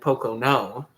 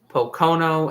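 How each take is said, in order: First: The stress is on the third syllable. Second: The stress is on the second syllable.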